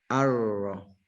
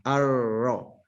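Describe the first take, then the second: No difference in how they are said.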